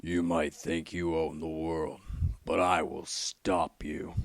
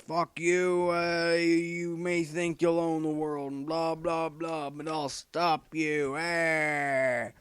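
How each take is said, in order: First: Batman voice. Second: Much higher, slow Batman defiance; Batman, first try. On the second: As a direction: growl defiance, pitched high and slowly. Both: Retold or imitated. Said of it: "as Batman might say".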